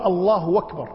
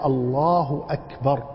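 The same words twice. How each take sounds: First: الله أكبر run together as allahu-wakbar; hamza turned waw. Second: Slow الله, then أكبر begun with a clean glottal stop; cut hamza. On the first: Teacher mimics those who drop the hamza, w glide. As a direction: glide a w into أكبر with no glottal stop. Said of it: "لا يحقق همزة أكبر". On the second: Teacher gives the correct takbir, hamza cut cleanly. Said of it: "يقطع". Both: Shown as a demonstration.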